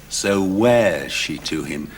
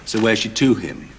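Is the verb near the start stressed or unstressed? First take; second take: stressed; unstressed. First: The verb at the start is clearly stressed. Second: The verb at the start is not stressed. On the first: The speaker calls it right. "But surely it's" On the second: The speaker calls it wrong. "you said"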